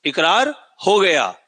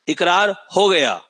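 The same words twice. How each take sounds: First: इकरार हो गया repeated slowly, हो stressed; slow dictation repeat, हो stressed; slow emphatic dictation. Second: इकरार हो गया slowly, हो stressed; teacher drilling इकरार हो गया slowly; slow emphatic dictation. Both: Shown as a demonstration. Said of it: "भूलना मत".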